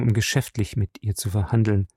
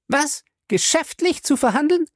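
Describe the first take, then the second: First: Leicht tiefere, ruhige Männerstimme; „verhandeln“ sachlich fallend, abwiegelnd; beschwichtigender Ehemann. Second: Hohe Frauenstimme, „verhandeln“ ungläubig steigend; empörte Ehefrau. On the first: Julius beschwichtigt seine Frau. (Ehemann redet der Frau die Sache klein, leise fallend) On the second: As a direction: schrill ungläubig nachäffend. Fay wiederholt empört die Ausrede. (Fay wiederholt höhnisch seine Ausrede, hoch und steigend) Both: A narrator's reading.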